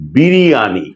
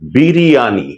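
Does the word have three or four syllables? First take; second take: four; four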